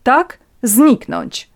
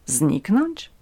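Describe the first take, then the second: First: Slow, loud, raised, falling; emphatic confirmation. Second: Taken aback. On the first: Countess confirms her demand to Natalia, firm and forceful. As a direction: drive the word home imperiously. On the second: Natalia repeats the countess's demand, taken aback. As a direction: echo the word in disbelief. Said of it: "zaskoczonej Natalii". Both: A narrator's reading.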